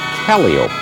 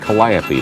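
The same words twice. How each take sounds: First: It uses the traditional circus pronunciation. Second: It uses the everyday, non-circus pronunciation. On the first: The speaker calls it right. "the proper circus pronunciation is Calliope" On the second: The speaker calls it wrong. "I was about to say Calliope"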